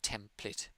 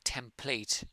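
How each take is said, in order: First: The final vowel is reduced and lazy. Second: The final vowel is full and clear. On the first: The speaker calls it right. "the pronunciation is more template" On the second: The speaker calls it wrong. "this looks like template"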